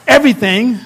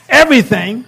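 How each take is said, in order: First: The word is said plainly, without extra energy. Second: The word is said with soulful, lively energy.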